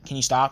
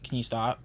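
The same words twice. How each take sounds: First: It is said loudly, as a yell. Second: It is said at a normal, moderate volume. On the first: A forceful demand so others can hear. "I just yelled" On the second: A calm second request to stop. "in my normal voice"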